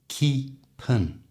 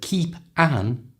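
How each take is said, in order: First: The p links into a schwa as one word. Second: The two words are said separately.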